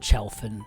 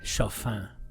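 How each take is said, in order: First: The name is said with an English pronunciation. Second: The name is said with a French pronunciation. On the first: This is how the name's owner may say it. "he may pronounce it Chalfin" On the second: This is the version the speaker prefers. "I like the French Chalfin"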